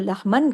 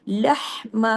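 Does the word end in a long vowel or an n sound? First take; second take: n sound; long vowel. First: The word ends with an n sound. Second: The word ends with a long a vowel. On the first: The speaker calls it wrong. "इसको लहमन करेंगे नहीं" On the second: The speaker calls it right. "एक अलिफ और एक जबर पढ़ा जाता है"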